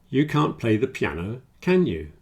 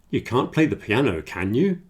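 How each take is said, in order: First: The pitch stays level or falls on the tag. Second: The pitch rises on the tag at the end.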